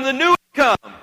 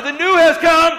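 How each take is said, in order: First: Louder and higher "The new has come."; loud call. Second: Shouted, much higher "The new has come."; louder. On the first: Pastor leading the congregation's call, raised voice. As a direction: call it out to the person behind you. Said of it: "tell them". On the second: Pastor firing up the congregation, shouting. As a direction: shout it out with full energy. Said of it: "Tell them louder". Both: Shown as a demonstration.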